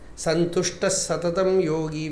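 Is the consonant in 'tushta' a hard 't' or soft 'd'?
hard t. The word is said with a clear 't' sound. The speaker calls it right. "we say"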